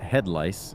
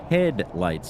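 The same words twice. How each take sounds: First: It is said with a clear, open voice. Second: It is said with a blocked, nasal voice. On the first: The speaker calls it right. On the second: The speaker calls it wrong.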